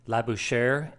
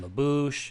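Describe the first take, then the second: First: The word ends with an R sound. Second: The word ends without an R sound. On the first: "hitting that R sound at the end" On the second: "Other videos on this betting system pronounce it"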